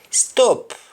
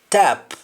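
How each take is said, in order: First: The word begins with an s sound. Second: The word begins with a t sound. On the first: "words that start with S T" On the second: "In Jamaican, the S T in most cases changes to T"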